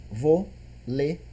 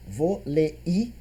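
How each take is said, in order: First: "Vôlei" soft, with "ei" kept as one glide; correct vôlei. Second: "Vôlei" split as vo-le-i, soft; wrong split vôlei. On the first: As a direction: say "Vôlei" quietly, diphthong intact. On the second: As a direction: pull "Vôlei" apart into three syllables, quietly. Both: Shown as a demonstration. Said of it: "Dói no ouvido".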